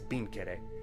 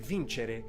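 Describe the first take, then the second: First: It is pronounced the way Sardinian speakers say it. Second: It is pronounced the way Italian speakers say it. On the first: "in Sardinian conquering is" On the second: "So will good Italians say"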